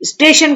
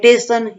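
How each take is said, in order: First: It begins with an s sound: station. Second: It begins with a t sound: teshan. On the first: This is the standard form. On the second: This is how village people say it.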